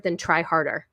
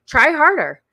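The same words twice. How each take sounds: First: Said in the usual way. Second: "harder" pushed higher and louder, falling at the end; emphatic repeat. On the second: Real, not acted. Echoing the TikToker's advice to viewers, a louder emphatic repeat. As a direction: hammer home "Try harder".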